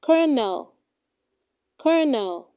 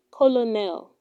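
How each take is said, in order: First: Colonel said as "KER-nel"; correct pronunciation. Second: Colonel said letter by letter as "ko-lo-nel"; wrong pronunciation. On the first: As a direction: say colonel like kernel, two syllables. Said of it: "It is pronounced". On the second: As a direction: say colonel in three syllables, sounding both l's. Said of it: "do not say colonel". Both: Shown as a demonstration.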